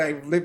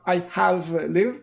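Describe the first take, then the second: First: The words 'I have' are contracted to 'I've'. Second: The words 'I have' are said in full. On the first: The speaker calls it right. "usually I've" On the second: The speaker calls it wrong. "it's not I have lived"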